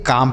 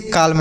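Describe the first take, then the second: First: "काम" with no L sound; silent L. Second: "काल्म" with the L voiced before m; misreading "काल्म" with its L pronounced; L wrongly sounded. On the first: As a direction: say "काम", long aa closing straight on m. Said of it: "यहाँ पे यल silent है". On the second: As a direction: let the L be heard in "काल्म". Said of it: "इसे काल्म नहीं पढ़ेंगे". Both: Shown as a demonstration.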